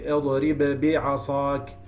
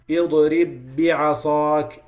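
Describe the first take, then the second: First: The final b is released with an echoing bounce. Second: The final b merges smoothly into the next b. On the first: The speaker calls it wrong. "You can't say ... That's not merging anymore" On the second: The speaker calls it right. "no qalqala, because now the ba got merged with the other ba"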